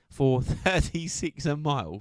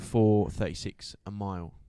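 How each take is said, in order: First: Higher, slow, amazed repeat; incredulous emphasis. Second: Said in the usual way. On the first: Real, not acted. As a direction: stretch it out in disbelief. Amazed repeat of the pace, "ridiculous.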